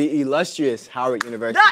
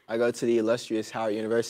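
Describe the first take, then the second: First: It is said louder, projected. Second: It is said at normal volume.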